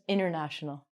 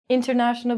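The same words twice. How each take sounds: First: The T after the N is dropped. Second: The T after the N is clearly pronounced. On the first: The speaker calls it right. "becomes international" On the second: The speaker calls it wrong. "we're going to take out the T"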